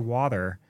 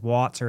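First: The word is said in a relaxed, natural way. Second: The word is over-pronounced in an exaggerated way. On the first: This is how speakers of the accent actually say it. The speaker calls it right. "but we just say water" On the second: This is how outsiders imitate the accent. The speaker calls it wrong. "Everyone goes water and they overpronunciate what we say"

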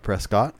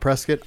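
First: The last syllable sounds like 'cot'. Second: The last syllable sounds like 'kit'. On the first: This is how an outsider says the name. "I'm not from Arizona, so I call it Prescott" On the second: This is how locals say the name. "most people here in Arizona call it Prescott"

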